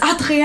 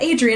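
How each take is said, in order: First: The name is said with a French accent. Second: The name is said with an American English accent. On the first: The speaker calls it right. "it's Adrienne" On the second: The speaker calls it wrong. "It's not Adrienne"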